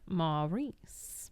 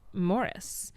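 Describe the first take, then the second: First: The name is said like Maurice. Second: The name is said like Morris. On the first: This is how his character's name was said on screen. "his on-screen character's pronunciation of Maurice" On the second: This is how the actor wanted his real name said. "his real life insistence that his name be pronounced Morris"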